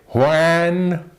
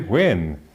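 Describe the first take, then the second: First: It is pronounced in an overly careful, artificial way. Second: It is pronounced in a relaxed, everyday conversational way. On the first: The speaker calls it wrong. "you don't say" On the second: The speaker calls it right. "you say when, because that's the way we say it"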